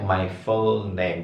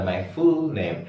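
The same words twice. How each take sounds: First: 'my full name' with short u, near fol; correct lax U. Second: 'my full name' with 'full' as fool; tense long 'oo' in 'full' of 'my full name'; wrong high U. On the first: Teacher says full name correctly, correct lax U. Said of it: "kalau bilang nama lengkap saya". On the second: Teacher shows students the mistake, wrong high U. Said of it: "bukan my full name". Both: Shown as a demonstration.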